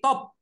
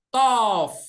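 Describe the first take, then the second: First: The word ends with a b sound. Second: The word ends with a v sound. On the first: "kalau ada titik di perut bed ini jadi B" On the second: "dia diterjemahkan jadi V. Makanya dibaca apa?"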